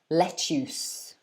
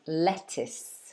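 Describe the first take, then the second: First: The second syllable has an 'oo' vowel. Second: The second syllable has a short 'i' vowel. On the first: The speaker calls it wrong. "they get confused and say oos" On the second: The speaker calls it right. "it's that I sound again, that short I"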